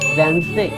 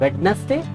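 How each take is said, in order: First: The middle d is silent in the word. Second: The middle d is sounded in the word. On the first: The speaker calls it right. "The correct is वेंसडे" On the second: The speaker calls it wrong. "This is not also correct"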